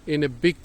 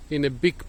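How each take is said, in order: Both takes have the same delivery.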